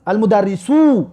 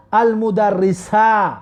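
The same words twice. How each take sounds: First: المدرسو read slowly, ending in a clear u sound; المدرسو spelled out slowly with the final u; Arabic ending -u. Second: المدرسه read slowly, ending in a long open a; Arabic ending -a. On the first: Teacher reads the plain subject form المدرسو slowly with final u. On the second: Teacher shows how inna turns the ending of المدرسه to a. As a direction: stretch out المدرسه with the final a. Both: Shown as a demonstration. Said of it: "این نه که در آمد مدرسو را مدرسه کرد".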